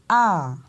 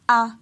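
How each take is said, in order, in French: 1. La hauteur monte puis redescend. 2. La hauteur reste stable à mi-hauteur. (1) "on monte, on descend" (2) "le ton ponctuel moyen"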